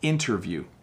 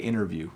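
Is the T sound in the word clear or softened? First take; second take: clear; softened. First: The T sound is pronounced clearly. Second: The T sound is very soft, almost dropped. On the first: "So the proper pronunciation is interview" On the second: "when I speak quickly, I, I would probably say interview"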